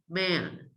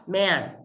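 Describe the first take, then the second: First: "man" said with the nose pinched; nose plugged. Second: "Man" with the vowel ringing through an open nose; nasal open-nose A. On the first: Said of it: "by plugging your nose". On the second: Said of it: "If the sound is different". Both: Shown as a demonstration.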